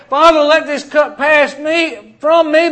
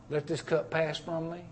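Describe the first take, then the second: First: Loud, high Father, let this cup pass me; pleading cry. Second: Soft, hushed Let this cup pass from me; hushed prayer. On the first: Preacher voicing Jesus pleading with the Father, loud. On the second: Preacher quoting Jesus in the garden, hushed. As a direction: breathe the garden prayer softly. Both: Retold or imitated.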